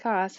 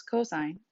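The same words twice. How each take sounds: First: "cos" said as one short syllable; abbreviation as written. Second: "cosine" in full, like co plus sign; "cosine" as the whole word, two syllables; correct pronunciation. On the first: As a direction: read "cos" just as it is spelt. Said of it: "so it looks like cos". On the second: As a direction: say "cosine" with long o and long i. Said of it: "make sure you pronounce it as cosine". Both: Shown as a demonstration.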